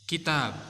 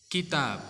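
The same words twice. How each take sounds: First: The word ends on a bare 'b' sound. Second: The word ends on a bare 'b' sound.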